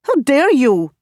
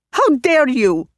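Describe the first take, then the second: First: HOW hit hard, falling; first furious cry; outraged. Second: HOW hit hard, falling, more strained; second furious cry; outraged again. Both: Acted. Repeated outraged question.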